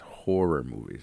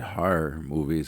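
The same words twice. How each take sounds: First: Horror is said with a standard vowel. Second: Horror is said with a local New York vowel. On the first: The speaker calls it right. "try to say uh, horror movies" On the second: The speaker calls it wrong. "I don't say this right. I say horror movies"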